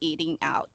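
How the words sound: It is said with an Asian accent. The speaker calls it wrong.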